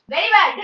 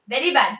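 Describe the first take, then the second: First: Mock scolding. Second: Said in the usual way. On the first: Real, not acted. Teacher teasing Anshika with a louder mock scolding. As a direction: playfully scold Anshika with Very bad.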